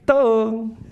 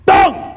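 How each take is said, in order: First: It is called out in a soft, gentle tone. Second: It is called out in a harsh, angry tone. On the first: No one is angry. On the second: Someone is angry.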